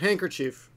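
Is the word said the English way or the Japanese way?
English. It is said as English handkerchief. Japanese listeners would not understand it. The speaker calls it wrong. "if you said handkerchief ... people wouldn't understand"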